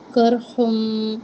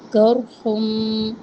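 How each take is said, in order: First: کرحم with a thick, heavy qaf and ra, very slow. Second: کرحم repeated even slower, qaf and ra thick and heavy. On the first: Teacher models the heavy letters for students, slow and deliberate. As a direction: stretch کرحم slowly, both letters full-mouthed. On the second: Teacher repeats the model word for students, slow and heavy. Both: Shown as a demonstration. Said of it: "قاف اور را دونوں کو موٹا پڑھنا ہے".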